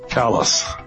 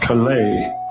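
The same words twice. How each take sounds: First: The name is said the local way. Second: The name is said the French way. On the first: This is how the locals in Maine say it. "the natives pronounce it Calais" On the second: This is the name of the town in France. "looks like Calais in France"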